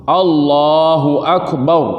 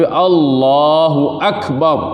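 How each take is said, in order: No difference in how they are said.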